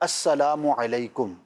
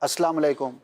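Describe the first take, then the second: First: Full greeting with the opening syllable and the u. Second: The greeting drops the u after salam. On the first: The speaker calls it right. "लफ्ज़ है अस्सलामु अलैकुम" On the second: The speaker calls it wrong. "ये दोनों जो मैंने अल्फाज़ कहे गलत हैं"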